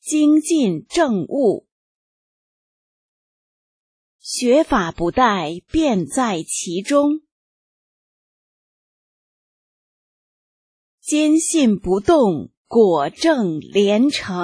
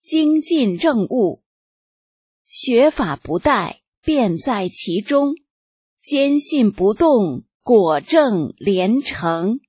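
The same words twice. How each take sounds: First: It is read at a slower pace. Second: It is read at a normal pace.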